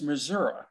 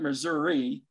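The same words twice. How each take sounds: First: The word ends without an 'ee' sound. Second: The word ends with an 'ee' sound. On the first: The speaker calls it right. "It's Missouri, right?" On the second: The speaker calls it wrong. "why do you guys keep on putting the E on the end of the word?"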